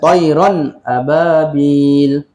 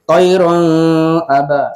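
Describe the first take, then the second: First: The n sound is pronounced clearly and separately. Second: The n sound runs into the next vowel. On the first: The speaker calls it right. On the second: The speaker calls it wrong.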